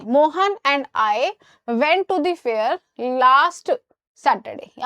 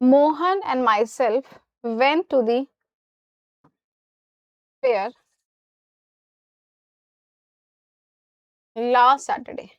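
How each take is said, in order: First: Very slow, spaced words; slow corrected sentence. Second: Very slow, words drawn out; slow dictation. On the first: Teacher slowly reads the corrected sentence to students. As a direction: dictate the fixed version slowly. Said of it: "अब सही हो जाएगा". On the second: Teacher reads the sentence slowly for students to judge. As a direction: read the wrong sentence slowly. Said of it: "wrong sentence read out". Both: Shown as a demonstration.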